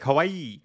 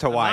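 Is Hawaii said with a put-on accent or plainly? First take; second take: put-on accent; plainly. First: Hawaii is said with an exaggerated put-on accent. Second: Hawaii is said in a plain, ordinary way. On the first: The speaker calls it wrong. "Like Hawaii" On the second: The speaker calls it right. "It's just Hawaii"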